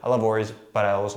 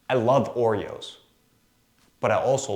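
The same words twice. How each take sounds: First: The sentence runs on without a clear pause. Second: A clear pause breaks up the sentence. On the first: The line lands with less impact. The speaker calls it wrong. "It doesn't have the same oomph to it" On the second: The listener gets time to take in the line. The speaker calls it right. "I just put a pause in there"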